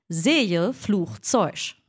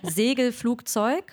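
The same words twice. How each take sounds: First: "Segelflugzeug" as Zejlfluchzeusch, slow; Kölsch. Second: "Segelflugzeug" with hard g sounds; standard German. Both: Shown as a demonstration. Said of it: "wie man Segelflugzeug auf, ähm, Kölsch sagt".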